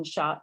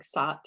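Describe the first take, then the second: First: Said in the usual way. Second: Sot, shot begun with a plain s. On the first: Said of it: "the s for the sh". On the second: Shown as a demonstration. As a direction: swap the sh for s in sot. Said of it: "might be a sound like sot".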